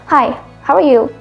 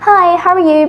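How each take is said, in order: First: The greeting sounds cold and unfriendly. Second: The greeting sounds warm and friendly. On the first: The speaker seems not to care about the listener. The speaker calls it wrong. "it sounds different. It changes your whole meaning and your intention" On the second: The speaker wants to be kind to the listener. The speaker calls it right. "use a friendly tone like"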